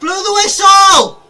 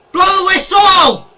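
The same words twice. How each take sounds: First: High, slow, loud pleading shout; pleading with the referee. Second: High, loud shout for the whistle; pleading with the referee. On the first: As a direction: drag out the plea to the ref. Pleading again, drawn out. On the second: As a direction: scream at the ref to end it. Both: Real, not acted.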